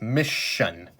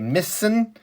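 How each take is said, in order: First: The middle consonant is an SH sound. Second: The middle consonant is a plain S sound. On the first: The speaker calls it right. "Changes the S sound to a sh" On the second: The speaker calls it wrong. "it doesn't say missin"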